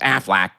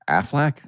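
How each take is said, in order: First: It is said in a quacking duck voice. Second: It is said in a puzzled normal voice.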